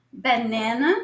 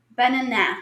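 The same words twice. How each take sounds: First: Banana said as "benena", English vowels; banana with flat English a sounds, stress on the middle; American English banana. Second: Banana with open Portuguese a vowels, ending "bananá"; banana said the Brazilian way, clear a in every syllable; Portuguese-style banana. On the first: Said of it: "por que que eu falo banana". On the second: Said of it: "e não falo banana". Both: Shown as a demonstration.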